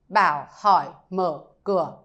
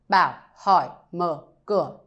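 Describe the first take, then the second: The two takes are said the same way.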